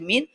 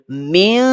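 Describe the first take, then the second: First: It ends with a full n sound. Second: It ends with only a nasal hum. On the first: The speaker calls it wrong. "nun mati kita baca min, tapi di sini kita tak nak baca min" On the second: The speaker calls it right. "kita gantikan nun mati tu dengan bunyi hidung sahaja"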